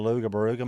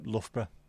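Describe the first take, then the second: First: It is said as 'Luga Baruga', with extra syllables. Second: It is said as 'Luff-bruh', short and local. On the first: An outsider is guessing at the name. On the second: A local is giving the real name.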